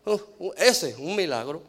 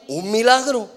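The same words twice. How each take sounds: First: Doubtful dismissal. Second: "un milagro" proclaimed high and loud; rousing, emphatic declaration; emphatic affirmation. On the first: Retold or imitated. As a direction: imitate writing someone off as needing "un milagro". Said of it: "ha dicho así de alguien". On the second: Real, not acted. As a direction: preach it as the answer, louder and higher. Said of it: "eso es lo que necesitamos".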